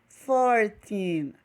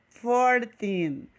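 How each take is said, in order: No difference in how they are said.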